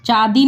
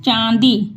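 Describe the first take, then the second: First: "चांदी" as oral chaadi; the mistaken "चांदी", no nasal aa; without nasal. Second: "चांदी" as chãandi, through the nose; nasalised vowel. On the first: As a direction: say "चांदी" with a plain open aa. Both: Shown as a demonstration. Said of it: "चांदी नहीं".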